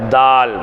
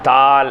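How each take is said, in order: First: The word is said in a heavy, thick voice. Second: The word is said in a light, thin voice. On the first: The speaker calls it right. "நல்ல கொஞ்சம் கனத்த குரல்ல தால்" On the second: The speaker calls it wrong. "நிறைய பேர் இதை தால் தால் அப்படின்னு படிப்போம்"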